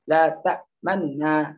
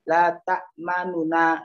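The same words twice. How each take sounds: First: The middle vowel is pronounced very briefly. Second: The middle vowel is pronounced at full length. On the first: The speaker calls it right. "tapi disedikitkan la ta'manuna, nah itu ada domanya, tetap doma, cuman cepat" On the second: The speaker calls it wrong. "jangan dibaca normal la ta'manuna itu full, harokatnya full"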